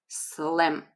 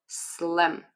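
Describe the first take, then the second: The two takes are said the same way.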